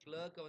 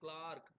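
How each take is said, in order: First: The vowel sounds like 'er' in 'her'. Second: The vowel sounds like 'ar' in 'car'.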